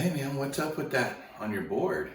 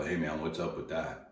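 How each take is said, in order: First: High, loud challenge to the stranger; confronting. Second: Said in the usual way. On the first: Retold or imitated. He confronts the surfer kid about his board, high and loud. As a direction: call him out, pitched up and punchy. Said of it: "I'm like". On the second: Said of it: "most people don't come up and go".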